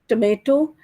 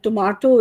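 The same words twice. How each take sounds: First: It is said in an American accent. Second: It is said in a British accent. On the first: "this is in American English" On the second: "is in British English"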